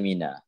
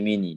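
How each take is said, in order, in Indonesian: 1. Kata itu berakhir dengan vokal 'a'. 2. Kata itu berakhir dengan vokal 'i'. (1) "dia baca mina" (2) "dia tak baca mini"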